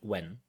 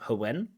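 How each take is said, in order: First: The word begins with a plain w sound. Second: The word begins with a breathy h before w. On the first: The speaker calls it right. "but when" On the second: The speaker calls it wrong. "So it's not when"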